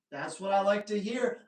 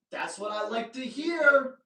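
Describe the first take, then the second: First: Said in the usual way. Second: Louder and higher, delighted; excited. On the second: Shown as a demonstration. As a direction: say it like great news.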